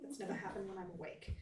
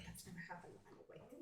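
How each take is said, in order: First: Soft mutter, a little more audible; muttering to herself. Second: Very soft, quick mutter under the breath; muttering to herself. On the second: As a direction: mumble it privately, barely voiced and hurried. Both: Acted. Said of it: "just kinda mutter to herself".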